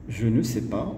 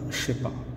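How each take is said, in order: First: Every word is said, including ne. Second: The words are slurred together into one chunk. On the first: "au lieu de dire" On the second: "il y a même une différence au niveau de la prononciation"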